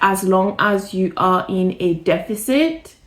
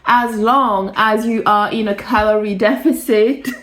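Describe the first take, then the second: First: It is said at normal, quieter volume. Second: It is said louder, with more force.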